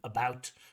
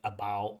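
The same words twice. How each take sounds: First: The final T sound is clearly pronounced. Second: The final T sound is dropped. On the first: The speaker calls it right. "instead of about" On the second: The speaker calls it wrong. "dropping that T"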